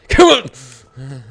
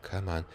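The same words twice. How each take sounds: First: Sudden loud "come on"; loud, exasperated yelp; impatient outburst. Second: Very soft, low "come on"; hushed, nervous plea; muttered urging. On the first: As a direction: burst out urging it on. Bursts out at the stressful game. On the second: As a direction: say it tensely under your breath. Muttering at the stressful game. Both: Real, not acted.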